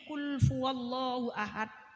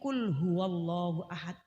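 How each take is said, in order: First: The first word is said with an f sound. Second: The first word is said with an h sound. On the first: The speaker calls it wrong. "mbak niku keliru mbak" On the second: The speaker calls it right. "Niku kulhu wallahu ahad"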